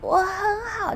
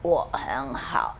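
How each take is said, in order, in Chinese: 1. 听起来紧绷、哽咽。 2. 听起来低沉又沮丧。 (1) "就你快要被吊死了" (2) "就是你过得不好"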